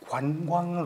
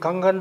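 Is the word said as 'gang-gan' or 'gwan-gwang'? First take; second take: gwan-gwang; gang-gan. First: The word is said with the w glide. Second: The word is said without the w glide. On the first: It is the intended standard form of the word. The speaker calls it right. "관광 도시입니다" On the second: It imitates how someone else mispronounced the word. The speaker calls it wrong. "각하의 발음은"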